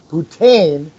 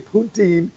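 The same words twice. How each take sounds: First: It is said like the French word for whore. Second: It is said the accepted way for the dish. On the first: It means a prostitute in French. The speaker calls it wrong. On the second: It names the fries, curds and gravy dish. The speaker calls it right. "you want to say poutine"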